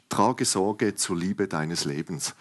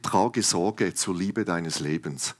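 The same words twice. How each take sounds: First: „Trage Sorge zur Liebe deines Lebens“ repeated slowly, stressing „Trage“; slow emphatic title. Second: „trage Sorge zur Liebe deines Lebens“ said slowly, each word weighted; slow emphatic title. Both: Shown as a demonstration. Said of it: "ich habe sie genannt".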